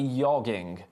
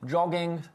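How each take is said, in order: First: The word starts with a soft, Y-like sound. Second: The word starts with a hard J sound.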